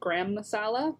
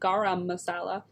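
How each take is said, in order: First: The first word is one syllable, like gram. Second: The first word has two syllables, ga-ram. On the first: The speaker calls it wrong. "I was for many years saying gram, like G R A H A M" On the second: The speaker calls it right. "it's not spelt that way, so it's gar- garam"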